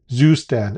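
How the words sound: It is said with an American pronunciation.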